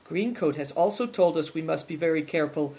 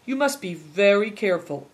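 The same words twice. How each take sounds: First: Coolly. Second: Said in the usual way. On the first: A narrator's reading. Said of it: "Big Tiger interjected coolly".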